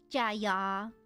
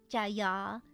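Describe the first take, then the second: No difference in how they are said.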